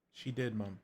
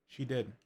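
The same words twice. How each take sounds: First: Gentle reassurance. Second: Said in the usual way. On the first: Acted. Elu gently reassuring Mom that Jaja kept everything, tender. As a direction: soothe her as you say it again.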